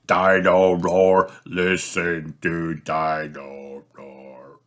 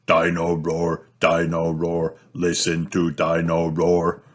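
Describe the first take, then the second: First: Slowing and fading toy song; batteries dying. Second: Sings. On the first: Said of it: "stops walking and talking completely". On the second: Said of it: "Dino Roar sings". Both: Acted.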